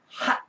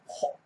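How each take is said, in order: First: The vowel is an open, unrounded 'ah'. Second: The vowel is an open, rounded 'aw'. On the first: This is how Americans say it. "미국인들은 하" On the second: This is how the British say it. "영국인은 허 합니다. 바로 입 크게 벌린 오 발음"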